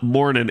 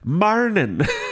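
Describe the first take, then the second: First: The word is said as plain 'morning'. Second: The word is said as 'marnin'. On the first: The speaker calls it wrong. "it's not morning" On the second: The speaker calls it right. "it's marnin"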